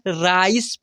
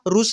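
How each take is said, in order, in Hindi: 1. इसमें एक फिसलती हुई 'ai' ध्वनि है। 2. इसमें एक छोटी 'u' ध्वनि है। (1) "राइस पढ़ना है" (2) "रुस नहीं पढ़ना है"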